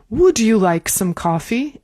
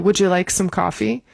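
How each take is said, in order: First: Each word is pronounced fully and carefully. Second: The words are reduced and run together. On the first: The setting is a very elegant restaurant. "If it's like a very elegant restaurant" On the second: The setting is an ordinary restaurant. "But probably most restaurants"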